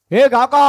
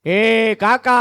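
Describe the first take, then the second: First: Calling out. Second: Said in the usual way. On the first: Acted. Calling the crow again.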